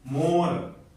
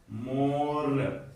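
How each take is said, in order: First: Said in the usual way. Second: मोर drawn out softly with a long "o"; very slow model word. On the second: Shown as a demonstration. Teacher drawing out मोर to show the "o" sound. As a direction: stretch मोर very slowly. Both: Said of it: "ओ के तीन उच्चारण होते हैं".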